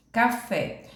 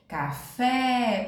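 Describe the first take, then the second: First: Said in the usual way. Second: "Café" with a long sung-out FÉ; cantando a sílaba tônica. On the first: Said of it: "você pode falar a palavra cantando mesmo". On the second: Shown as a demonstration. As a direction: draw out the final syllable of "Café". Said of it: "como se estivesse chamando alguém". ("Café" cantado, alongando o "fé")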